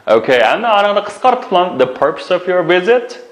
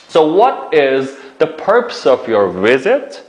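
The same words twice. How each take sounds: First: Said in the usual way. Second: Each word slowly, clearly; slow model sentence. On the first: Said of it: "repeats phrase shortened". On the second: Shown as a demonstration. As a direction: spell it out slowly for learners. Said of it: "teacher models key sentence slowly".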